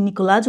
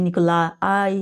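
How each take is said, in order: First: "নিকলাস" ending in a consonant after la; Niklas pronunciation. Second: "নিকোলাই" ending in a drawn-out ai; Nikolai pronunciation. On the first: Teacher unsure of the name, trying "নিকলাস" as Niklas. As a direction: say "নিকলাস" as Niklas, closed final syllable. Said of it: "নিকলাস উচ্চারণ করবে নাকি". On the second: Teacher unsure of the name, trying "নিকোলাই" with ai ending. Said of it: "নিকোলাই উচ্চারণ করবে". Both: Shown as a demonstration.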